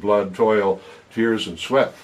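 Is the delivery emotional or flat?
flat. The words are read flatly without feeling. The words carry no emotional power. The speaker calls it wrong. "If I read them like that, well, so what?"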